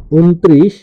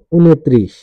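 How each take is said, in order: First: ঊনত্রিশ as written, "un-trish", rising; spelling reading. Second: ঊনত্রিশ as "u-no-trish", falling; spoken pronunciation. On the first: Teacher reads out a number's spelling, ঊনত্রিশ as "un-trish". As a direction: say ঊনত্রিশ with no vowel after the first n. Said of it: "বানান". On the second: Teacher demonstrates pronunciation, ঊনত্রিশ as "u-no-trish". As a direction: add an o after the n in ঊনত্রিশ. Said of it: "উচ্চারণ". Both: Shown as a demonstration.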